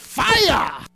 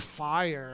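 First: The word is said loudly, with force. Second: The word is said plainly, without force. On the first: The speaker calls it right. "You got to say it with an attitude" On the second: The speaker calls it wrong. "You can't just say fire"

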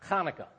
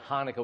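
First: It begins with a throaty, raspy sound. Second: It begins with a plain, soft H sound. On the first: The speaker calls it right. "most properly, is pronounced Hanukkah" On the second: The speaker calls it wrong. "Some people just say Hanukkah with an H"

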